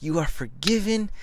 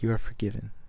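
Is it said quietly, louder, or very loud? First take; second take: very loud; quietly. First: It is said very loudly. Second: It is said at a normal, quiet level.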